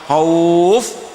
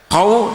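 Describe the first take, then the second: First: The vowel is drawn out long. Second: The vowel is held short. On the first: The reader stops on this word. "khauf panjang" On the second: The word is read without stopping on it. "tidak panjang"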